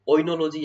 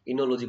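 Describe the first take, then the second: First: The word begins with an 'oi' sound. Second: The word begins with an 'i' sound. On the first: "बाकी ओ silent होता है अपन बोल देते हैं" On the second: "इनोलॉजी बोला जाता है वैसे तो"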